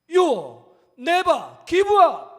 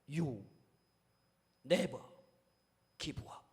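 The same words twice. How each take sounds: First: It is said in a loud voice. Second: It is said in a very quiet voice. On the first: "마지막 큰 소리로" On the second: "아주 작은 목소리로"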